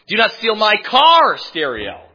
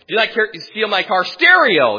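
First: The stress falls on the word car. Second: The stress falls on the word stereo. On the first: Stealing a stereo from elsewhere might be acceptable. "Not your car stereo, but your house stereo" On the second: Stealing other things from the car might be acceptable. "Not your stereo in your car, but I could steal money out of your car"

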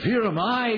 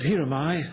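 First: It is said in an eager, fervent tone. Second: It is said in a flat, unenthusiastic tone. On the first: The speaker is burning to go and share. The speaker calls it right. "he had something now that was burning in him" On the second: The speaker is not really committed. The speaker calls it wrong. "No, he didn't say it like that"

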